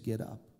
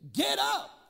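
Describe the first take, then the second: First: It is said with little force. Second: It is said with great force.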